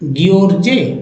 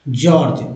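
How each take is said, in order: First: The word begins with a hard g sound. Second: The word begins with a j sound. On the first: The speaker calls it wrong. "नहीं" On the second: The speaker calls it right. "इसे जॉर्ज पढ़ते हैं।"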